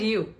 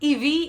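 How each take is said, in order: First: It is one syllable that sounds like 'you'. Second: It is two syllables, like 'ivy'. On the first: The speaker calls it right. "you and you" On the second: The speaker calls it wrong. "this is not Ivi"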